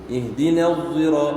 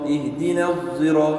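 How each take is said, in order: The two takes are said the same way.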